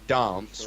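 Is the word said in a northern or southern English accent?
southern. It is said in a southern English accent. "we don't say dance"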